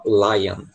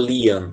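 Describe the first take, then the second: First: The first vowel sounds like eye. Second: The first vowel sounds like ee. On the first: The speaker calls it right. "você fala lion" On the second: The speaker calls it wrong. "Você não fala lion"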